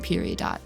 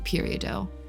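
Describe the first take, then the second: First: It is given the everyday American pronunciation. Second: It is given the French-style pronunciation. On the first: This is how it is commonly said in America. "American pronunciation" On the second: This is how geology specialists say it. "the way I it would be pronounced like by people in that field"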